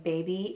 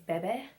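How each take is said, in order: First: The word is said as standard 'baby'. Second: The word is said as 'beh-beh'. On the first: "instead of saying baby" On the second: "it's Bebe. So it's B H, B E H"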